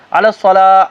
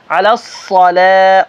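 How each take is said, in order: First: الصلاح with weak ṣād, no shadda; wrong pronunciation. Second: الصلاح slow, heavy ṣād held with shadda, light lam; correct الصلاح. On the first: Teacher showing students the common error. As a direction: slack الصلاح shown as mistake. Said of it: "علی الصلاح نہیں". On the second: Teacher showing the correct recitation. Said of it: "سواد موٹا بول کے آگے لام پتلا". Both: Shown as a demonstration.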